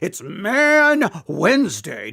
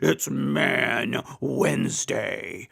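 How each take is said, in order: First: It is said in his normal voice. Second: It is said in a deeper, bassier voice.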